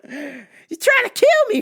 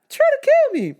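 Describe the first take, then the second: First: High and slow, mock disbelief; slow high mock outrage. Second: Much higher, squealed in mock outrage. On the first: Host in slow mock disbelief at attackers. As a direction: stretch it out high in mock shock. First take, slower. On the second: Host squealing at attackers trying to kill him. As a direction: squeal it like you can't believe it.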